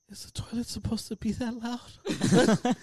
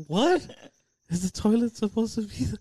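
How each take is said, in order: First: Put-on high, slow little-boy voice; scared kid imitation. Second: High, quick incredulous question; baffled echo. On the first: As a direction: mimic a bewildered five-year-old, drawn out. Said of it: "Like, all scared". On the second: Retold or imitated. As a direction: repeat it back in retold disbelief. Echoing kid's question in disbelief.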